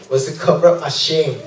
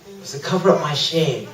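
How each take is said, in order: First: Said in the usual way. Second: Softer, sober repeat; quiet confession. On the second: Real, not acted. Preacher admitting his works covered shame, quietly. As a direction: let it drop softly.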